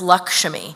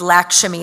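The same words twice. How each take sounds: First: The name has an Indian, Hindi-style pronunciation. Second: The name has an anglicized, Trinidadian-style pronunciation. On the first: This is the standard Hindi way to say the name. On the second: This is how her family says the name.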